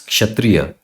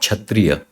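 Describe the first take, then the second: First: The word begins with a ksh sound. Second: The word begins with a ch sound. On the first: The speaker calls it right. "This is kshatriya" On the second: The speaker calls it wrong. "it is not kshatriya"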